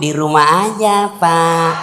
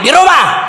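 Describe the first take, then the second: First: It is said in a soft, sweet, lilting voice. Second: It is said in a loud, harsh voice.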